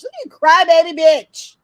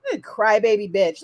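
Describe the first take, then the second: First: Loud jeering shout, higher; taunting jeer, much louder; mocking shout. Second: Said in the usual way. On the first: Real, not acted. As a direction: yell the taunt to jeer at him.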